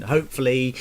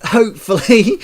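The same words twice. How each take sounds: First: Said in the usual way. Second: Hopefully, said much louder and higher with a rise; loud hopeful cry. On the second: Real, not acted. Ranting about the council, loud rising hopefully. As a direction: belt out hopefully, rising and mocking.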